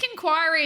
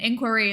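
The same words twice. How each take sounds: First: The word is said in a British pronunciation. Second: The word is said in an American pronunciation. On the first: "I think inquiry is the British way to say it" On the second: "inquiry is the American way to say it"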